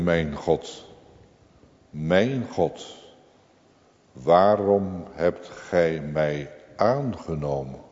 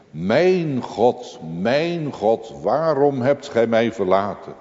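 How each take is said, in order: First: Hushed, slow, amazed at undeserved grace; wondering question. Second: Anguished cry. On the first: Believer asks God in wonder why he was accepted, hushed. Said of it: "die vraagt vol verwondering". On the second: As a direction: cry it out across the darkness. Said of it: "Een schreeuw door de duisternis heen". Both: Retold or imitated.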